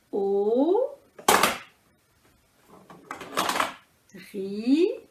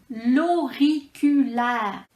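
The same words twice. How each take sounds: First: Very slow "Auriculaire", each syllable held apart. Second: Said in the usual way. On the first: Shown as a demonstration. Teacher counting with balls, syllable by syllable. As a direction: stretch "Auriculaire" into four beats with long gaps. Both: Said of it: "quatre syllabes".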